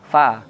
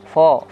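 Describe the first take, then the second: First: The vowel is thin and open. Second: The vowel is thick and rounded. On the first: The speaker calls it right. "fa tipis" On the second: The speaker calls it wrong. "jangan sampai ketarik sama huruf ro"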